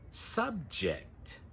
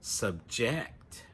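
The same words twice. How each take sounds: First: The stress is on the first syllable. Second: The stress is on the second syllable. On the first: It is used as a noun. "For the noun" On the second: It is used as a verb. "the stress is on the second syllable"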